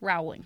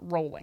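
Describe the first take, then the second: First: The name does not sound like 'rolling'. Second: The name sounds like the word 'rolling'. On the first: The speaker calls it wrong. "you might go, oh, maybe her name is Rowling" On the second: The speaker calls it right. "She pronounced it Rowling"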